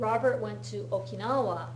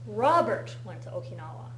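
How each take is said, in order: First: The stress falls on the word Okinawa. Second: The stress falls on the word Robert. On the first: It was Okinawa rather than another place. "as opposed to the Philippines" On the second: It was this person rather than someone else. "not John"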